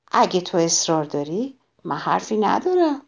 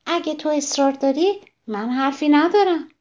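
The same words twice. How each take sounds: First: Calm, unruffled. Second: Higher, other-voiced calm wasp. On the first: Acted. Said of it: "بدون اینکه عصبانی بشه". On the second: The wasp answers the ladybug's challenge in a higher voice. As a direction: answer coolly, stinger ready.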